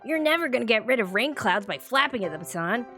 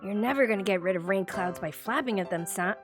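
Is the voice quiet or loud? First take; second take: loud; quiet. First: It is said in a louder, non-Nagiki voice. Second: It is said in Nagiki's quieter voice.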